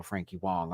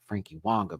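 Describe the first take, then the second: First: Said in the usual way. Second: Frankie Wonga with Wonga ending in "-a"; Wonga with an added final a. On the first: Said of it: "Frankie Wonga, bitch". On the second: Shown as a demonstration. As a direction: say "Wonga", not "Wong", with a clear final a. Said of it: "Get this right. Wonga".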